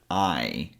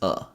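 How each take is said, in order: First: The word has a full 'eye' vowel. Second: The word is reduced to a weak 'uh'. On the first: "the full version of this word" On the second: "You can simply use a schwa sound to say it"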